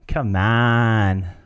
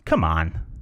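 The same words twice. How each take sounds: First: It sounds encouraging, like gentle coaxing. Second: It sounds scornful, like dismissing an idea. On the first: Just try it. "just try it" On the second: There's no chance that's happening. "There's no chance that's happening"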